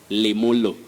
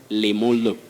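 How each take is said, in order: No difference in how they are said.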